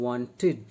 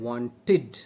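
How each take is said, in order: The two takes are said the same way.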